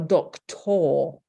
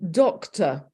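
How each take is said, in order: First: The last syllable is stressed with a full 'or'. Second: The last syllable is reduced to a weak schwa.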